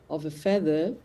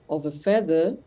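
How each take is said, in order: The two takes are said the same way.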